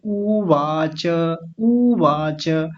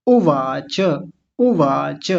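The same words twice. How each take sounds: First: उवाच with the first vowel pulled long and slow. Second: उवाच with a quick short उ. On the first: Teacher showing how a long ऊ would sound. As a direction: draw out the ऊ in उवाच. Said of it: "लंबा खींचते". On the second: Teacher giving the correct short vowel. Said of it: "ऐसा बोलेंगे". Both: Shown as a demonstration.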